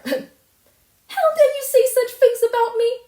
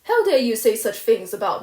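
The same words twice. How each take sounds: First: High, loud, tearful screaming; vehement shriek. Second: Loud and angry but still in her own pitch; vehement. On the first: Furious girl screaming at the neighbour, vehement shriek. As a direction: let the rage explode. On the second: Furious girl to the neighbour, vehement but held in. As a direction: push back hard, held in. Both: Acted. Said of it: "she repeated vehemently".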